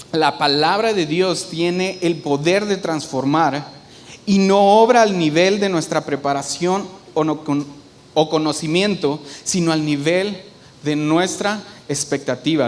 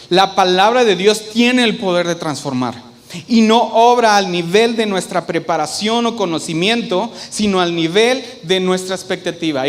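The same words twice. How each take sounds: First: Measured reading. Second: "palabra de Dios" and "obra" punched louder, in a continuous run; emphatic repetition. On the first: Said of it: "quiero leerte algo que dice". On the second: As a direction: drive home "La palabra de Dios" forcefully, then "no obra". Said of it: "Lo quiero repetir". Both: Shown as a demonstration.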